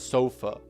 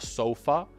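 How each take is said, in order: First: The final vowel is a weak schwa. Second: The final vowel is a full open 'ah'. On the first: The speaker calls it right. "but rather a sofa. It's a schwa sound at the end" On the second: The speaker calls it wrong. "not an open a sofa"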